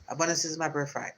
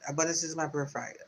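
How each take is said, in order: Both takes have the same delivery.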